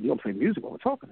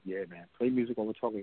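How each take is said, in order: First: Quick question rising on TALKING; imitating a doubtful boss, brisk; retold doubting question. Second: Said in the usual way. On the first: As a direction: query the odd idea, rising at the end.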